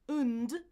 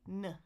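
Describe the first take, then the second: First: A weak schwa vowel is followed by n and d. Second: Only an n sound is heard, no vowel. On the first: "is the reduced version" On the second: "I can just say n"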